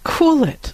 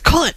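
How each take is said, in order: First: It is said calmly and peacefully. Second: It is said in a desperate, urgent way. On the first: "like almost peacefully" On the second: "desperate, definitely"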